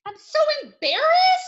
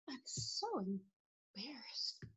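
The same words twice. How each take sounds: First: High, loud embarrassed wail; hammed-up loud embarrassment. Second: Tiny, slow embarrassed whisper; hushed, drawn-out embarrassment. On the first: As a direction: exclaim it high, mortified. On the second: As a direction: whisper it as if shrinking away. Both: Shown as a demonstration. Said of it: "Those are emotions".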